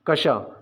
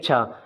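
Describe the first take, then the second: First: It starts with a 'k' plus 'sh' cluster. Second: It starts with a single 'ch' sound. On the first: The speaker calls it right. "इसे पढ़ते हैं कशा" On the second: The speaker calls it wrong. "ज़्यादातर लोग पढ़ेंगे छा, तो ये छा नहीं होता"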